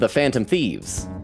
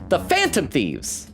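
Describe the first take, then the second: First: The stress falls on the word Thieves. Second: The stress falls on the word Phantom. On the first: "I always put the emphasis on thieves" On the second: "She always goes"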